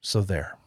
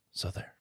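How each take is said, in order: First: Said in the usual way. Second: Near-breathless softer repeat; teasing aside echo. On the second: Acted. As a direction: toss it off under the breath. Playful refusal, repeated softly.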